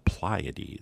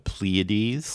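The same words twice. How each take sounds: First: It is pronounced the way English speakers say it. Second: It is pronounced the speaker's usual American way. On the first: "an astronomer I follow on YouTube from England, they pronounce it the Pleiades" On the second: "I pronounce it the Pleiades"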